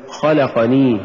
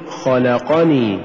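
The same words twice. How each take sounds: First: خلقني with qa swallowed, khalaq-ni; wrong pronunciation. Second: خلقني drawn out slowly, kha-la-qa-ni; correct pronunciation. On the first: Teacher mimics the mistake: clipped خلقني. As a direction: clip خلقني into two beats. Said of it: "ولا تقل". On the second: Teacher models the right way: slow خلقني. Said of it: "قل". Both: Shown as a demonstration.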